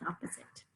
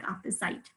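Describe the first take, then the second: First: "opposite" with a short schwa ending, OP-uh-zit; real pronunciation. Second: "opposite" said as it looks, ending rhymes with site; spelling pronunciation. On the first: Teacher giving the real sound after the spelling, OP-uh-zit. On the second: Teacher showing how the spelling looks, oppo-site. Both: Shown as a demonstration. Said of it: "a very funny thing at the end here".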